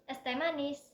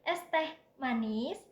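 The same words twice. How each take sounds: First: The phrase is said smoothly without a pause. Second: There is a pause before the last word. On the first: It names a drink of sweet iced tea. "Contoh yang pertama" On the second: It offers iced tea while addressing a sweet girl. "Tujuannya itu ke nona-nona manis"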